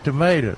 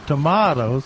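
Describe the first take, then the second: First: It is said with an American pronunciation. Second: It is said with a British pronunciation. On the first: It is the way Americans say it. "if you're just talking to us American people, you just say tomatoes" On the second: It is the way the English grandmother says it. "if your grandmother's around, you call them tomatoes"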